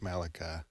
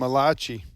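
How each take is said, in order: First: The name is given the usual English pronunciation. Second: The name is given an Italian-sounding pronunciation. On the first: It is said the accepted way. The speaker calls it right. "I know it's Malachi" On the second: It is said as a joke. The speaker calls it wrong. "Italian prophet"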